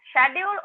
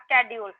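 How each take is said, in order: First: SCHEDULE with SH at the start; SCHEDULE said as "shedule"; British pronunciation. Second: SCHEDULE with SK at the start; SCHEDULE said as "skedule"; American pronunciation. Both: Shown as a demonstration. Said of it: "What should we speak, like".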